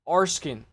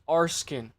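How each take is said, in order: First: The name is said like 'Arskin'. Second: The name is said like 'Arskin'.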